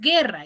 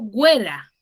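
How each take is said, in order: First: The u is silent after the g. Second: A w sound follows the g. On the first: The speaker calls it right. "yo digo guerra" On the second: The speaker calls it wrong. "yo no digo güera"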